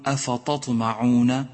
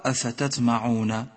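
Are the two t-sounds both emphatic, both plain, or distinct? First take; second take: both emphatic; both plain. First: Both t-sounds are made heavy and emphatic. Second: Both t-sounds are made light and plain. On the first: "إنك إذا فخمت التاء صارت طاء" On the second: "وإذا رققت الطاء صارت تاء"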